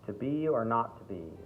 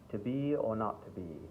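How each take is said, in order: First: It is spoken in a strong American accent. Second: It is spoken in a mild British accent. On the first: "even further into an American accent, it might be a little too much" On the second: "not so, such a thick British accent, but it's sort of standard English"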